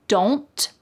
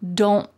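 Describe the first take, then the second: First: The final T is released with a puff of air. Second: The final T is held and not released. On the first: "Do not becomes don't" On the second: "you're more likely to hear don't"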